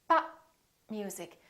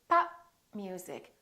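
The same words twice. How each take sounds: No difference in how they are said.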